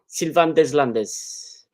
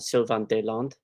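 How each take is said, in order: First: The s in the surname is pronounced. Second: The s in the surname is silent. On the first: The name is said as if it were not French. The speaker calls it wrong. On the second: The name is said the French way. The speaker calls it right.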